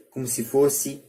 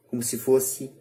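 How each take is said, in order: Both takes have the same delivery.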